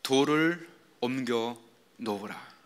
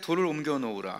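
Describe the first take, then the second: First: It is spoken as Jesus's commanding voice. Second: It is read plainly, without expression.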